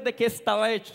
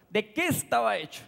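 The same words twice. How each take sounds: First: Said in the usual way. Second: "qué" stressed, falling after it; pointed emphasis. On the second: Real, not acted. Preacher asking listeners to heed the phrase, stress on "qué". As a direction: set "¿de qué estaba hecho?" apart, leaning on "qué". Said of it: "Escucha esa palabra".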